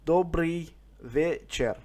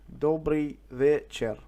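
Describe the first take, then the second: No difference in how they are said.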